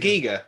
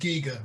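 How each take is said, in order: First: The first vowel sounds like 'eye'. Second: The first vowel sounds like 'ee'. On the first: The speaker calls it wrong. "I thought we were pronouncing it wrong" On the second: The speaker calls it right. "it is Giga rather than"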